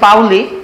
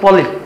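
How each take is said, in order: First: The first vowel is pronounced like 'ow'. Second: The first vowel is pronounced like 'oh'. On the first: This is the name's original pronunciation. "আসলে নামটা হচ্ছে পাউলি" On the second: This is the local adapted pronunciation. "নাম দিয়ে দিছে হচ্ছে পলি"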